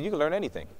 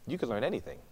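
First: Said in the usual way. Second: "You can learn anything" repeated much softer, nearly hushed; soft echo. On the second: Retold or imitated. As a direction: let the repeat sink in quietly.

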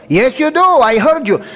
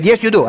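First: Higher, firmer insistence; insisting. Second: Said in the usual way. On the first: Retold or imitated. Doctor insisting to the student he heard him crying. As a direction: press the point, pitch rising.

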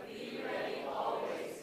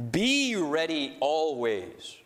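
First: Slow whisper of Be ready always; soft secret whisper. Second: Be pressed, then slow and even; slow and deliberate, leaning on Be; stress on be. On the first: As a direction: breathe the words out with no voice. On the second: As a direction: drag it slowly, punching Be. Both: Shown as a demonstration. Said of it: "emphasize each word every time".

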